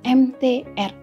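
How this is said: The letters use Indonesian names, ending in er. "kita baca dengan abjad bahasa Indonesia"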